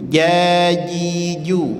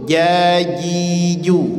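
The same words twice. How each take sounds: First: The j sound is soft and gentle. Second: The same.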